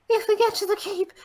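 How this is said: An exaggerated, old crone-like female voice. "That sounds like an old hag"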